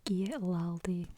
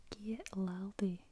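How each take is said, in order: First: Giet Laldy spoken aloud and slow, GEET LAL-dee; voiced Scots phrase. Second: Giet Laldy whispered slowly, GEET LAL-dee; whispered Scots phrase. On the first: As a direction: say Giet Laldy out loud and slowly. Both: Shown as a demonstration. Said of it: "just means give".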